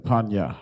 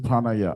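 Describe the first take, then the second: First: The word has two syllables. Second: The word has three syllables. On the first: The speaker calls it right. "I mean Panya, right?" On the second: The speaker calls it wrong. "Let's use Panaya"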